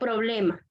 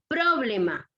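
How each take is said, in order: First: The stress falls on the middle syllable, ble. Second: The stress falls on the first syllable, pro. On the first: The speaker calls it right. "no problema" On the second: The speaker calls it wrong. "Si yo dijese que es en pro"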